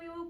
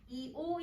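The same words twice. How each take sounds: First: The two vowels are said fast, blending together. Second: The two vowels are said slowly and apart.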